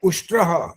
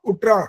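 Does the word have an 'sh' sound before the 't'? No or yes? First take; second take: yes; no. First: The word is said with an 'sh' sound. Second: The word is said without an 'sh' sound. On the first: The speaker calls it right. "उष्ट्रः बोलना था" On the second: The speaker calls it wrong. "ये तो उठरा बोल रहा है"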